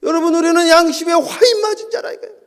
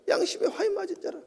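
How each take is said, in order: First: Loud, high proclamation of 화인; loud preaching. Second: High but softer repeat, 화인 still stressed; quieter echo. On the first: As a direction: cry out 화인 loud and high to the congregation. Preacher hammers the verse. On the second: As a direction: let 화인 land again, softer. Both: Acted.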